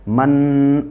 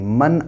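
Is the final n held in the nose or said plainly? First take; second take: nasal hold; plain. First: The n is held long with nasal sound. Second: The n is said plainly without a nasal hold. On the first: The speaker calls it wrong. "ऐसे नहीं करेंगे" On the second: The speaker calls it right. "Simple तरीके से अदा होगा"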